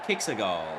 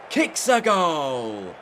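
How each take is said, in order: First: The voice sounds only a little excited. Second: The voice sounds extremely excited and energetic. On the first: "mildly excited" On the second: "super excited"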